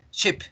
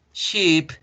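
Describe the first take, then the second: First: "ship" with a short dry vowel; "ship" clipped, lax vowel. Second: "ship" said as sheep, long falling ee; "ship" with a held ee, higher pitch. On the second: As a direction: draw out the vowel of "ship". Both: Shown as a demonstration. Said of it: "fíjense en la diferencia entre las dos".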